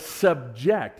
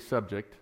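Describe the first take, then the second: First: The stress is on the second syllable. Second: The stress is on the first syllable. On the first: It is the verb meaning to place under control. "But subject" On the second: It is the usual noun meaning a topic. "normally you want to say subject"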